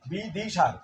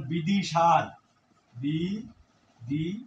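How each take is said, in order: First: বিদিশার said quickly in one breath. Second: বিদিশার said slowly, each syllable stretched; slow and drawn out. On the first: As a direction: rattle off বিদিশার fast. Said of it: "যত দ্রুত উচ্চারণ করি". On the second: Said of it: "আমি একটি উদাহরণ দিয়ে". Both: Shown as a demonstration.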